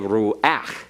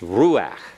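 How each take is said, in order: First: The stress falls on the final part, ach. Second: The stress falls on the first part, ru. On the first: The speaker calls it wrong. "You don't say ruach" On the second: The speaker calls it right. "You put the accent on the ru and the ach, you back off of the emphasis"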